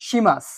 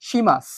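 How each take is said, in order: The two takes are said the same way.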